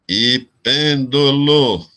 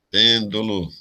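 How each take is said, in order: First: "pêndulo" slowly split into separate syllables. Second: Said in the usual way. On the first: Shown as a demonstration. Teacher marking the syllables for students, syllable by syllable. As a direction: mark out each syllable of "pêndulo". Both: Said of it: "eu vou até marcar aqui a sílaba".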